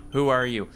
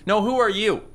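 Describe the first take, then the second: First: Said in the usual way. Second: "who are you" thrown back higher; retort. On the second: Acted.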